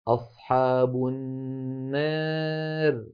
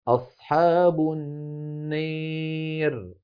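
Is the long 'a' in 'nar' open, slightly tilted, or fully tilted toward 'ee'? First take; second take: slightly tilted; fully tilted. First: The long vowel leans slightly toward an 'e' sound. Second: The long vowel is pushed strongly toward an 'ee' sound. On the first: "هذه ممالة إمالة صغرى" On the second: "بالنسبة للإمالة إمالة كبرى"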